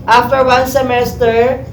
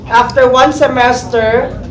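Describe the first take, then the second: No difference in how they are said.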